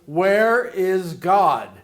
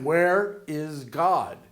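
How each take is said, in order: First: It is said loudly, raising the voice. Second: It is said at normal, quieter volume.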